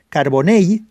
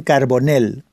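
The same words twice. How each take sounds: First: Carbonell ending in a y glide, like "car-bo-ney"; correct Valencian Carbonell. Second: Carbonell ending in a plain l sound, like "nel"; mispronounced Carbonell. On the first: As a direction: say the final ll of Carbonell as a y. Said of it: "se pronuncia Carbonell". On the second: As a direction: say Carbonell with a hard Castilian L at the end. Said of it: "Eso es incorrecto". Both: Shown as a demonstration.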